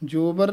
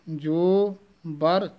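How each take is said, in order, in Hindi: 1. दोनों शब्द बिना किसी विराम के एक साथ जुड़े हुए हैं। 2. दोनों शब्दों के बीच हल्का-सा विराम है। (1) "ਜੋਬਰ ਨਹੀਂ ਕਹਿ ਦੇਣਾ" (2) "ਜੋ ਇੱਥੇ ਯਮਕ ਲਾ ਦੇਣੀ ਹੈ"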